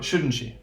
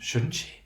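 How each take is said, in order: First: The voice falls at the end. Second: The voice rises at the end. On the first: The speaker expects agreement and is not really asking. "there will be a, a falling intonation" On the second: The speaker is really asking and unsure of the answer. "that will be rising intonation"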